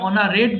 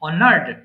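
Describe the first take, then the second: First: The ending is an extra syllable, "-ed". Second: The ending is a bare "d" sound. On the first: The speaker calls it wrong. "ভুল করে এটা অনারেড বলবেন না" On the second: The speaker calls it right. "এটা হবে অনার্ড"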